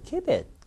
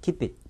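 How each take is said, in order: First: The phrase is said with lively feeling. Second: The phrase is said flatly, without feeling. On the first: The speaker calls it right. "괜찮아?" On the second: The speaker calls it wrong. "이상하잖아요"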